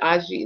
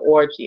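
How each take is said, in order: First: The name is said the Nigerian way. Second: The name is said the American way, like orgy. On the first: "like it's pronounced like she's Nigerian" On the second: "in America, um, they pronounce it orgy"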